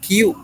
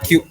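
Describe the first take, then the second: First: It is said as two separate syllables, ki-u. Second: It is said as one merged syllable, kyu. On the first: The speaker calls it wrong. "kita membacanya bukan Q ya" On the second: The speaker calls it right. "tapi menjadi Q langsung"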